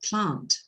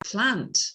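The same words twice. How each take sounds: First: The vowel is low and back, in a British accent. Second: The vowel is fronted, in an American accent. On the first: "in British English" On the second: "in American English"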